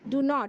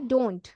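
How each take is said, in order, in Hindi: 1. इसे दो अलग-अलग पूरे शब्दों की तरह बोला जाता है। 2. इसे एक छोटे, संक्षिप्त शब्द की तरह बोला जाता है।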